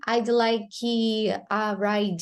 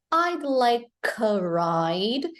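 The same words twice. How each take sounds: First: Slow, "like" and "ride" each ending in an ee sound; sounded final E. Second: Slow, "like" linked to "a", "ride" ending on D; silent final E. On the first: Teacher shows what he's not saying, sounded final E. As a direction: wrongly add ee after "like" and "ride". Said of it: "he's not saying". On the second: Teacher repeats the clip for learners, silent final E. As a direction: end "like" on K and "ride" on D. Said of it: "here it's reduced, it's silent". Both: Shown as a demonstration.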